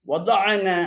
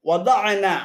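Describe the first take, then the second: The two takes are said the same way.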